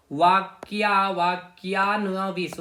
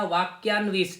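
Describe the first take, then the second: First: वाक्यान्विश drawn out slowly, syllable by syllable; slow sounding-out. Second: Said in the usual way. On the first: Shown as a demonstration. Teacher repeating the information minister's title for students, slow sounding-out. Teacher breaks up hard term.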